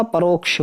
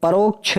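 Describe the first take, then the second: First: परोक्ष ending in ksh, pa-rok-sh; corrected pronunciation. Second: परोक्ष ending in chh, pa-rok-chh; wrong pronunciation. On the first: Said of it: "ये कक्षा वाले". (परोक्ष में 'क्ष' साफ़ बोलें) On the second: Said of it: "नहीं होता". (परोक्ष को 'परोक्छ' बोलें) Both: Shown as a demonstration.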